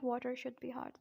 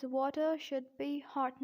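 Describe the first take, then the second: First: "water should be hot" with the R of water sounded. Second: "water should be hot" with no R ending water; silent R. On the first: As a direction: end "water" on a clear R before "should". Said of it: "not water should be hot". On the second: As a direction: end "water" on a schwa before "should". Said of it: "it is pronounced as". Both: Shown as a demonstration.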